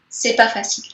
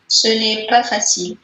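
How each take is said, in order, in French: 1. Le 'ne' de négation est complètement omis. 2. Le 'ne' de négation se prononce en entier. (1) "en langage courant, on peut dire" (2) "La forme la plus correcte qu'on utilise en écrivant"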